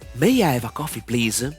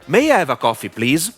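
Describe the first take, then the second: First: It is spoken quietly, with little air. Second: It is spoken at a moderate loudness. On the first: "Low volume" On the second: "Medium volume"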